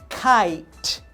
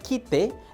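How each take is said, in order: First: The final E is silent, with an 'eye' vowel. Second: The final E is sounded, with a Spanish 'i'. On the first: The speaker calls it right. "Ahí ya le estoy dando el sonido en inglés" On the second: The speaker calls it wrong. "no estoy pronunciando quite"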